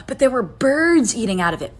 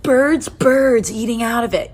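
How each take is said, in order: First: Said in the usual way. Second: Slow, leaning hard on "Birds, birds" for emphasis; "birds" drawn out and stressed. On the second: Shown as a demonstration. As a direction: repeat "birds" slowly, punching each one.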